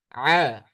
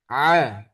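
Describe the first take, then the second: First: The vowel sounds open from the throat. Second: The same.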